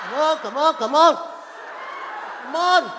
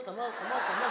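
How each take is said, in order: First: Raised, insistent hurrying; impatient urging. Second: Soft, low muttered urging; impatient hurrying. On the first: Wife missing EastEnders hurrying husband, loud impatience. Same urging, escalating louder. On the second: Wife with things to do hurrying husband, quiet impatience. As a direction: urge him along under your breath. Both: Retold or imitated.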